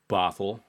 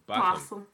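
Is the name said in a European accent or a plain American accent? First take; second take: American; European. First: It is said in a plain American accent. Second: It is said in a put-on European accent.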